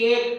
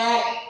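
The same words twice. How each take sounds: First: The first vowel is a closed e sound. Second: The first vowel is an open ae sound. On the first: This is how the word is written. "এক লিখছি" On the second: This is how the word is actually spoken. "উচ্চারণে কিন্তু বলি এক"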